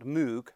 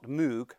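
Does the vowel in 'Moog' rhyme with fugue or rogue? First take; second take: fugue; fugue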